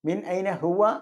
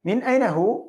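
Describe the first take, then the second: First: The last word ends with a full final vowel. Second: The last word ends without its final vowel. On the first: This is the formal form with full endings. "ശരിക്ക് അതിന്റെ അവസാനത്തെ അടയാളം കറക്റ്റായിട്ട് ഉച്ചരിക്കുമ്പോൾ" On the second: This is the everyday spoken form. "നമ്മൾ സ്പോക്കൺ ലാംഗ്വേജിൽ അവസാനത്തെ അവസാനത്തെ അക്ഷരം സുക്കൂനാക്കിയാണ് പറയേണ്ടത്"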